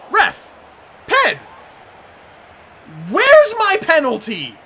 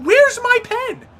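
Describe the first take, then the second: First: Slow, louder, indignant ask; drawn-out frustrated appeal; angry demand. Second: Much higher, slow, louder outraged cry; stretched-out high protest; exasperated plea. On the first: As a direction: demand the penalty from the ref. Denied a penalty. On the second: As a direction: plead with the ref in disbelief. Denied a penalty again. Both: Real, not acted.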